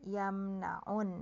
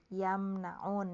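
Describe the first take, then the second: Both takes have the same delivery.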